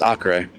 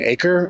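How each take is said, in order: First: It is said as the Portuguese place name. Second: It is said like the English word acre. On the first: It names the Brazilian state. The speaker calls it right. "No, no, no. It's it's Acre" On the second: The listener mistakes it for a unit of land. The speaker calls it wrong. "they're like, "You mean acre?""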